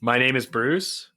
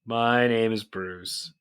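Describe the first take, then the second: First: "My Name is Bruce?" as a rising, doubtful question. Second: "My Name is Bruce." said slowly and deliberately, falling; slow title announcement. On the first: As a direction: check the title, end going up. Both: Real, not acted.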